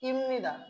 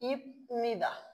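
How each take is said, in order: First: An m sound comes before nida. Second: A p sound comes before nida. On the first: The speaker calls it right. "তাহলে উচ্চারণটা কি হয়ে যাবে, ইমনিদা" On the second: The speaker calls it wrong. "আমরা সচরাচর যে উচ্চারণটা করি ইপনিদা, সেই ইপনিদা উচ্চারণটা কি আর করার সুযোগ নেই"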